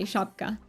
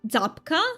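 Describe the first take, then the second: First: The word begins with an sh sound. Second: The word begins with a z sound. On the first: "Okay, shapka" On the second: "Is it Zapka? Or it, do you pronounce it differently?"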